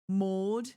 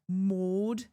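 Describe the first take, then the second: First: The name is said in an English accent. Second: The name is said in an English accent.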